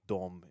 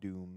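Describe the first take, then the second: First: The vowel sounds like the one in 'Tom'. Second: The vowel sounds like the one in 'room'. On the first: It follows the original Eastern European spelling. "then it would be more like Dom" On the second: It is the usual pronunciation. "instead of Doom"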